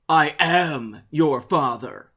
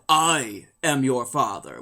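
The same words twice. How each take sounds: First: The word am carries strong stress. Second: The word am carries no special stress.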